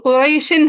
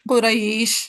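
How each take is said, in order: First: The word ends with an added -in syllable. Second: The word ends abruptly on the sh sound. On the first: The reading continues without stopping. "आयातों को मिला के नहीं पढ़ते होते ना तो हाँ कुरैशिन है" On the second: The reader stops on this word. "जब वक्फ किया तो क्या बन गया?"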